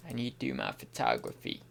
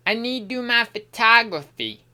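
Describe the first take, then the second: First: Said in the usual way. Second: Playful, odd attempt at an American accent; weird American accent. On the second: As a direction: put on an odd American twang. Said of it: "What is this accent? It's like a weird American".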